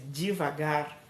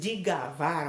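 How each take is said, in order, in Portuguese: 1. A palavra começa com um som de 'dev'. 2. A palavra começa com um som de 'dig'. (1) "ao invés de devagar" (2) "quando diz digavar"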